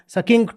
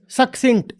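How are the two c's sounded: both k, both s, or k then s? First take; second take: both k; k then s. First: Both c's are sounded as k. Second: The first c is k, the second is s. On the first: The speaker calls it wrong. "अगर दो सी हैं तो दोनों सी सी ही हैं" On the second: The speaker calls it right. "एक सी कुछ बोल रहा है, दूसरा सी कुछ और बोल रहा है"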